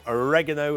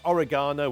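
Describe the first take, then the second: First: It is pronounced the American way. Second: It is pronounced the British way.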